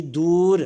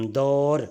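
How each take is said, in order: First: "دور" as door, with a long oo, louder; long u vowel. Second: "دور" as daur, with an au sound; au vowel. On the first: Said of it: "دال پر پیش ہے". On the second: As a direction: say "دور" as daur, not door. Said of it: "دال پر زبر آئے گی". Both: Shown as a demonstration.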